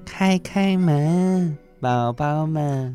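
The voice sounds gentle and sweet.

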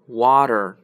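The middle consonant sounds like a d. "美国人是water"

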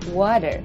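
The middle t sounds like a short d. "美式英语中的水water"

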